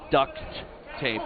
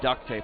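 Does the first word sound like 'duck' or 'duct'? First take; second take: duct; duck. First: The first word ends with a clear t sound. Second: The first word sounds like duck, without a t. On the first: The speaker calls it right. "it was duct tape" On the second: The speaker calls it wrong. "not duct tape, like quack quack"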